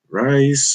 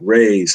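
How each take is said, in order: First: The name rhymes with 'nice', one syllable. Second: The name rhymes with 'days', one syllable. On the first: "Is it Reyes or Rice or?" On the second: "like stingrays, sun rays"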